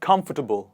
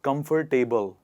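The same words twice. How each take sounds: First: The ending is reduced to a short tubble. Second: The ending is said like the word table. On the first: The speaker calls it right. "It is it is tubble" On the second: The speaker calls it wrong. "they pronounce it like this"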